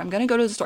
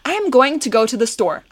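First: The words are linked together in smooth flow. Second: Each word is said separately and clearly. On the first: "the flow, the connection of words" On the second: "sounding super clear"

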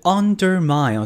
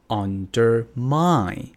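First: The stress is on the first syllable. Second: The stress is on the last syllable. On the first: The speaker calls it wrong. "它不是undermine" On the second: The speaker calls it right. "是undermine undermine"

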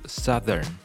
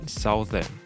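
First: The first vowel is changed, unlike the vowel in south. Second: The first vowel sounds like the vowel in south. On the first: The speaker calls it right. "OU 的音变成像是的音" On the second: The speaker calls it wrong. "不念Southern"

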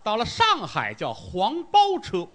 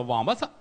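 First: It is said in standard Mandarin. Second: It is said in Shanghainese.

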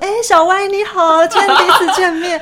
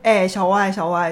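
First: It is said in a put-on social voice. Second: It is said in her natural everyday voice.

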